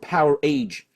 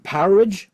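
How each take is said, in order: First: The ending is a full word, age. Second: The ending is reduced, like in outage. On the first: "I've always called it Power Age" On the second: "should be pronounced Powerage, like an outage"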